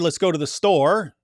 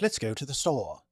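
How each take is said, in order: First: It is said in a plain, non-British accent. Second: It is said in a British accent.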